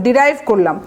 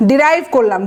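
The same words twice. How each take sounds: The two takes are said the same way.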